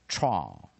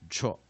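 First: The vowel glides as two linked sounds. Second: The vowel is a short weak sound. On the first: "两个音把它连起来念" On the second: "第一个母音写个弱母音符号，所以我们念"

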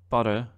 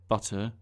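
First: The middle consonant is a D sound. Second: The middle consonant is a clear T sound. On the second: "pronounce the T's in butter as T"

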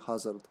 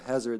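First: It is said with a Serbian pronunciation. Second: It is said with an English pronunciation. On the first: "it would be" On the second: "Instead of"

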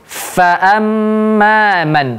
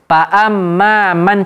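First: The first sound uses upper teeth on lower lip. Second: The first sound is made with both lips. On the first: The speaker calls it right. "tapi fa'amma man. Nah, seperti itu" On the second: The speaker calls it wrong.

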